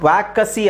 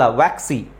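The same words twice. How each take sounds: First: ವ್ಯಾಕಸಿ with an extra vowel between k and s; wrong pronunciation. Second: ವ್ಯಾಕ್ಸಿ with k and s run together, no vowel between; correct pronunciation. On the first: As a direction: mimic the mistake ವ್ಯಾಕಸಿ. (ತಪ್ಪಾದ ಉಚ್ಚಾರ ವ್ಯಾಕಸಿ) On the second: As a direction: say ವ್ಯಾಕ್ಸಿ tight, no vowel after k. (ಸರಿಯಾದ ಉಚ್ಚಾರ ವ್ಯಾಕ್ಸಿ) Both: Shown as a demonstration. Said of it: "ವ್ಯಾಕಸಿ ಅಲ್ಲ".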